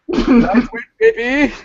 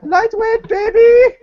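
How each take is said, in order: First: It is said in a deep voice. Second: It is said in a higher-pitched voice. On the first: The man at the gym is saying it. "the guy had a pretty deep voice" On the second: The man's nephew is saying it. "a higher pitched voice version of the guy"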